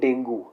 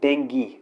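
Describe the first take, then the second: First: The word ends with an 'oo' sound. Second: The word ends with an 'ee' sound. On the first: The speaker calls it wrong. "वो हिंदी की pronunciation हो सकती है" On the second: The speaker calls it right. "English में उसे डेंगी ही बोल बोलते हैं"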